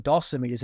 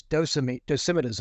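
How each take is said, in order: First: Dosimeters as DOSS-ih-mee-ters; "dosimeters", short first vowel and a long "ee" in meters; own pronunciation. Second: Dosimeters as doh-SIM-ih-ters; "dosimeters", long o first and short vowels after; another speaker's pronunciation. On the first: Shown as a demonstration. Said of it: "I always say them dosimeters". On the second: Retold or imitated. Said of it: "He pronounced them as".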